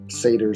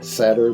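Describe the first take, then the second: First: The first vowel sounds like the one in 'Satan'. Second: The first vowel sounds like the one in 'sad'. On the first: "sounds too much like Satan" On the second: "makes it sound like I'm sad"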